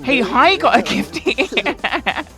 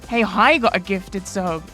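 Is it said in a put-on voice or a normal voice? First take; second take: put-on; normal. First: It is said in a put-on comic voice. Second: It is said in his normal voice.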